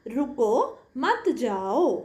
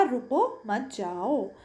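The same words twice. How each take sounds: First: Slow "रुको मत, जाओ", broken clearly after रुको; "रुको मत, जाओ" with a deliberate comma pause after रुको; punctuated pause. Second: "रुको मत, जाओ" run together with little break after रुको; unpunctuated reading. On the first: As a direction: stop after रुको, then say मत जाओ as one unit. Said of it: "दूसरे अनुच्छेद में हमने विराम चिन्हों का प्रयोग किया". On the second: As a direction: read "रुको मत, जाओ" on without punctuation pauses. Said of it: "कोई भी विराम चिन्ह नहीं". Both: Shown as a demonstration.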